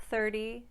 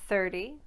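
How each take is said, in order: Both takes have the same delivery.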